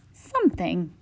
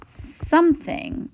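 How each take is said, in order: First: Said in the usual way. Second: High and drawn out. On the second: Shown as a demonstration. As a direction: stretch it up high, slowly. Teacher stretching the unknown minutes.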